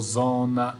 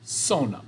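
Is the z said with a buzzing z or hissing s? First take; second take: buzzing z; hissing s. First: The first sound is a buzzing z. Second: The first sound is a hissing s. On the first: The speaker calls it wrong. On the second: The speaker calls it right. "Those all have S sounds to it"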